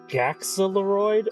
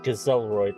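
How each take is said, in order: First: The letter after the first vowel sounds like 'ks'. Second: The letter after the first vowel sounds like 'z'. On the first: "either Gaxeloroid" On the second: "if that X is pronounced like a Z"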